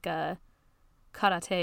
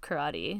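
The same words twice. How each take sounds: First: It is said with a Japanese-style pronunciation. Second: It is said with the usual English pronunciation. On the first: The speaker sounds overly intellectual. The speaker calls it wrong. "It's like when people say like karate instead of" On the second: It is the normal adapted pronunciation. The speaker calls it right. "just say karate. That's what we say"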